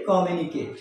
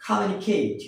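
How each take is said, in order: First: কমিউনিকেট said "ko-mi-u-ni-ket"; কমিউনিকেট with unaspirated k; common mispronunciation. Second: কমিউনিকেট said "kha-myu-ni-kheit"; কমিউনিকেট with open first vowel; correct pronunciation. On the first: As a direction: round first vowel, flat ket in কমিউনিকেট. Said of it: "কি বলি?". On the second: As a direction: aspirate the k and glide "kheit" in কমিউনিকেট. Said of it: "আসলে এর উচ্চারণ হবে". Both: Shown as a demonstration.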